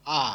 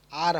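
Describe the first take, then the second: First: "আ" as a loud, open "aa", no r; English letter R said "ah"; silent final r. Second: "আর" as "aar", r pronounced; letter R with the r heard; sounded final r. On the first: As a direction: leave "আ" open, dropping the r. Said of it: "বলতে হবে". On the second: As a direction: close "আর" on an audible r. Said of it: "আর হবে না". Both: Shown as a demonstration.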